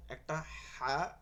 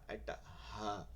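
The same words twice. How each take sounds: First: হা said slowly, light and plain; the ordinary ha, held slow. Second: হা said low and soft from the throat; soft throaty ha. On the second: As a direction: breathe the হা from deep in the throat. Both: Shown as a demonstration. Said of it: "দুইটা হাকে পৃথক করতে পারি না".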